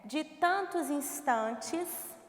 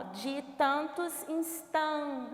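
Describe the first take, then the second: First: Slow, measured line of verse; "de tantos instantes" in full, unhurried; slow verse reading. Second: Slow count-along "de tantos instan", cut after TAN; "de tantos instan" drawn out, final "-tes" dropped; scansion to stressed syllable. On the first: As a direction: read "de tantos instantes" slowly, every word complete. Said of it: "Então, observem". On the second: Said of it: "última sílaba tônica". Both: Shown as a demonstration.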